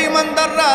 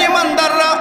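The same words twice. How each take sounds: The two takes are said the same way.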